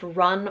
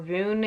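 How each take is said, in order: First: The name sounds exactly like the word 'run'. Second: The name has a different vowel from 'run'. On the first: "it just seemed weird to say his name was Run" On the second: "I pronounced it Rune"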